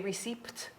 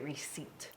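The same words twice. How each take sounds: First: The P sound is pronounced. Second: The P sound is left silent. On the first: The speaker calls it wrong. "do we say receipt?" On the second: The speaker calls it right. "No, we say receipt"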